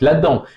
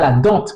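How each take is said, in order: First: The word ends on the nasal vowel, no T. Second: The word ends with an audible T sound. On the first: The speaker calls it right. "vous dites la dent" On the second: The speaker calls it wrong. "vous ne dites pas la dente"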